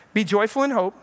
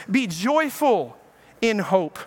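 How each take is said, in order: First: Said in the usual way. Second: Very slow, each word weighed; slow emphatic reading. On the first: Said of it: "repeats the verse". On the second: Shown as a demonstration. Preacher reads Romans to the congregation, very slow and weighty. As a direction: draw out joyful, letting it land. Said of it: "He says".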